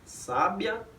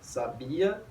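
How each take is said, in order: First: The stress is on the first syllable. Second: The stress is on the middle syllable. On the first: "é a posição da sílaba tônica" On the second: "é a posição da sílaba tônica"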